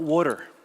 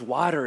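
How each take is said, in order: First: The word is said with an East Coast accent. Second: The word is said without an East Coast accent. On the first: The speaker calls it wrong. "I'm from the East Coast" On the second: The speaker calls it right. "it's water"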